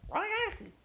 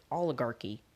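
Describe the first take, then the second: First: "Oligarchy" garbled into roughly "wah-acky", pitched high; mispronounced oligarchy. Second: "oligarchy" said low and clear with every syllable; standard oligarchy. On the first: Retold or imitated. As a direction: blurt a high, mangled "Oligarchy". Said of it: "I just said". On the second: Shown as a demonstration. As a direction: say "oligarchy" properly, as others would. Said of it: "as they would say it".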